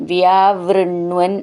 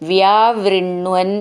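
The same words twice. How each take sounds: The two takes are said the same way.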